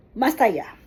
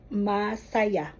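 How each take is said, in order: First: "Masaya" said quickly as one word; faster, joined up. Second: "masaya" stretched slowly over its syllables. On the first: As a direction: say "Masaya" briskly, with no breaks. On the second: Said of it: "make it slowly so that". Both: Shown as a demonstration.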